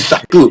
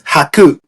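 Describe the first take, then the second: First: The word begins with a sh sound. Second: The word begins with an h sound. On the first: Older speakers with a heavy accent say it this way. The speaker calls it wrong. "they will say shaku" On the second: This is the standard form of the word for hundred. The speaker calls it right. "but it's haku"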